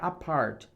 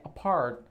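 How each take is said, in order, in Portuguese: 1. O som do t é pronunciado por completo. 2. O som do t quase não se ouve. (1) "a pronúncia não é apart" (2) "Esse T quase você não vai pronunciar"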